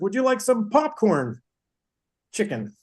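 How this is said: There is a pause before "chicken."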